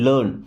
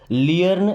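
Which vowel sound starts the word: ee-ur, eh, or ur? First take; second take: ur; ee-ur. First: The vowel sounds like 'ur' as in 'fur'. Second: The vowel starts like 'ee' then glides. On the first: The speaker calls it right. "क्या पढ़ते? लर्न।" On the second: The speaker calls it wrong. "इसको लियर्न या लेर्न नहीं पढ़ते"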